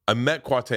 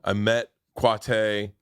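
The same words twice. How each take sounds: First: Said in the usual way. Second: Slowly, leaning on met; slow emphasis. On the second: Shown as a demonstration. Recalling meeting Quate, said slowly with weight on "met".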